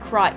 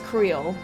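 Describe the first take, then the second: First: The name has an 'eye' vowel, like cry. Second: The name has an 'ee' vowel, like creel. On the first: This is how a character in the game says it. "Y'shtola pronounced Kryle's name as, like" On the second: This is how the speaker first assumed it was said. "I thought it was"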